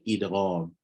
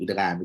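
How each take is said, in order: First: The word is pronounced carefully and clearly. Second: The word is pronounced loosely and sounds distorted. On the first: The speaker calls it right. "Sebut betul-betul eh idgham" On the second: The speaker calls it wrong. "Jangan duk idgham, idgham. Dah macam cok peneram"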